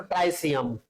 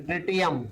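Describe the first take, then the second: First: ट्राइसियम, "trai" then "si-yam", the way some people read it; the ट्राइसियम variant, with "trai" at the start; alternative pronunciation. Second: ट्रिटियम, crisp "tri-ti-yam" with no "ai"; the textbook ट्रिटियम, short "tri" and retroflex "ti"; standard pronunciation. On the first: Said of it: "कुछ लोग ट्राइसियम भी पढ़ते हैं इसको". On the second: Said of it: "या फिर ट्रिटियम पढ़ते हैं". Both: Shown as a demonstration.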